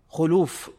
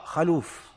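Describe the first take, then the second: First: The first vowel is a rounded 'u'. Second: The first vowel is an open 'a'. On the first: The speaker calls it right. "فالصواب خلوف" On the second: The speaker calls it wrong. "وبعض الشيوخ يقوله بفتح الخاء"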